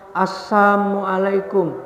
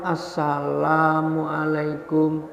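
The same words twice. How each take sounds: First: The greeting is said with the 'la' dropped. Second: The greeting is said with the full 'salam'. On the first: It wishes that the listener may perish. The speaker calls it wrong. "kebanyakan malah mengucapkan dengan keliru" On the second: It wishes peace on the listener. The speaker calls it right.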